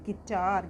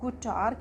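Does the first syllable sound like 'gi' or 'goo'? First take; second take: gi; goo. First: The first syllable has an 'i' vowel sound. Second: The first syllable has an 'oo' vowel sound. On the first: The speaker calls it right. "यू silent होता है, तो इसको हम बोलेंगे गिटार" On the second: The speaker calls it wrong. "गुटार क्यों नहीं बोलेंगे इसको"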